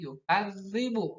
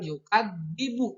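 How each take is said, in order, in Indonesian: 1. Konsonannya bunyi mirip z, yaitu dh. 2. Konsonannya bunyi d biasa. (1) "dal, nya bukan dal, tapi za"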